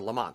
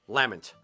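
First: The name is said in the American way. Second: The name is said in a non-American way.

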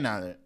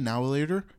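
First: The words are slurred together into one blur. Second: Each word is pronounced clearly and separately. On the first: "You gotta like lose function of your tongue to say the word" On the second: "If I enunciated it"

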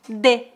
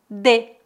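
First: It is said in a southern Brazilian accent. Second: It is said in a southern Brazilian accent.

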